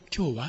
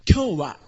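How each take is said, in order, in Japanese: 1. 普通の会話のように、母音がわずかにぼやけています。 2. それぞれの母音がはっきりと別々に発音されています。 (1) "実際読むときには、今日は、って言いますよね" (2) "というふうにはやってませんよね"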